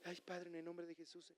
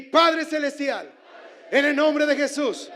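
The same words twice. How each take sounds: First: Very soft mumbled prayer, barely voiced; preacher mocking the congregation's timid prayers, very soft; timid little prayer. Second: Loud prayer. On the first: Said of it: "no lo dijo en voz bajita, así como tú oras". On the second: Real, not acted. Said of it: "con clamor".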